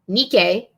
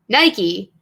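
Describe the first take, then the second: First: It is said with the ancient Greek pronunciation. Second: It is said with the common English pronunciation. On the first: The speaker calls it right. "goddess of victory is named Nike" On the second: The speaker calls it wrong. "not Nike, as people would have you believe"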